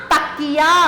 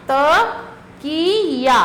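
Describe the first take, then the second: First: Said in the usual way. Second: तकिया stretched slowly, syllable by syllable; slow, drawn out. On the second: Shown as a demonstration. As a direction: draw out तकिया for the children. (तकिया को धीरे-धीरे खींचकर बोलिए) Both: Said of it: "और ये चित्र है किसका?".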